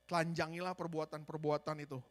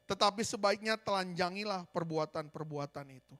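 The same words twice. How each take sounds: First: "telanjangilah" ditekan dengan nada lebih rendah dan turun; penekanan ulang. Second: Said in the usual way. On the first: Shown as a demonstration. (tegaskan sekali lagi kepada jemaat dengan nada rendah) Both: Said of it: "Sekali lagi".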